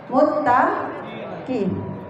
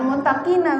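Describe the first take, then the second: First: The word ends on a bare consonant. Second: The word ends with an added vowel. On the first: The speaker calls it right. "wajib disukun sukunkan" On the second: The speaker calls it wrong. "Jangan muttaqina bacanya"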